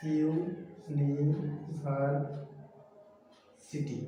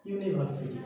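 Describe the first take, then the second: First: Very slow university, "iu... ni... var... siti"; split into syllables. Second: Said in the usual way. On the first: Shown as a demonstration. Teacher asking students to count, university syllable by syllable. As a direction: stretch each beat of university with long pauses. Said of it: "তাহলে কয়টা?". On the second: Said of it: "কয়টা syllable".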